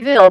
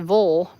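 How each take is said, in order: First: The vowel is a clear short 'i' sound. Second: The vowel is reduced to a dark 'uh' sound. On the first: This is the spelled form locals do not use. "we don't say Ville" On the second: This is how locals say town names. "we say Vol. Like it's just V L"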